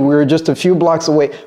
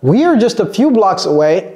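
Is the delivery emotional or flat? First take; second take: flat; emotional. First: It is said with flat, neutral intonation. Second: It is said with rising, emotional intonation. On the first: "elle n'a pas dit" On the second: "elle veut marquer l'émotion"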